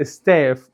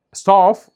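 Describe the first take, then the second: First: American "ستاف" with a thinned "stef" vowel; thin front vowel in "ستاف"; American, light vowel. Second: British "ستاف", loud, with a broad "ah"; emphatic open back vowel in "ستاف"; British, heavy vowel. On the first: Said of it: "في الامريكان بتنطق ستاف مرققه". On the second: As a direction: punch "ستاف" as a dark British "stahf". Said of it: "مفخمه كده". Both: Shown as a demonstration.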